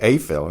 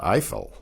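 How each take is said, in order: First: Eiffel said as "AY-fel"; Spanish pronunciation of Eiffel. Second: Eiffel said as "EYE-fel"; English pronunciation of Eiffel. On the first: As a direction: say Eiffel with an "ay" vowel first. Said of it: "the diphthong E I is pronounced A". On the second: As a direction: say Eiffel with an "eye" vowel first. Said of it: "and not Eiffel". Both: Shown as a demonstration.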